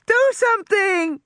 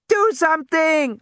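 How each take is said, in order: First: Put-on even higher, loud panicked girl's scream. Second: Put-on high, loud panicked girl's scream. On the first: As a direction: shriek it again, more desperate. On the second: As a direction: scream it at Grant. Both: A narrator's reading. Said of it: "Alexis screamed".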